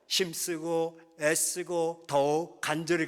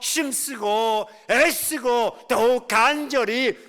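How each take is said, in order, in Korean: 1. 목소리가 처음부터 끝까지 한 세기로 유지됩니다. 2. 목소리가 끝으로 갈수록 점점 커집니다. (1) "목소리가 똑같아" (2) "저는 ... 그렇게 하잖아"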